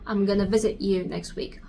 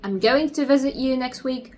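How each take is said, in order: First: 'Going to' is squeezed together into 'gonna'. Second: Every word of 'going to' is said in full. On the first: "they try to link the words together so they could speak faster" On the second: "instead of saying I'm going to visit you next week"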